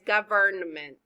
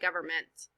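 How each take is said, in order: First: It is said slowly with every sound pronounced. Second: It is said quickly with some sounds dropped. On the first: "but it's government" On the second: "when you say it fast, it sounds like government"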